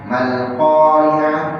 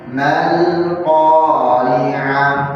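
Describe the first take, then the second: First: The vowel after the m is cut short. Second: The vowel after the m is held long. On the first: The speaker calls it wrong. "di sini nggak ada panjang" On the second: The speaker calls it right. "Di sana harusnya panjang, maka membacanya beda"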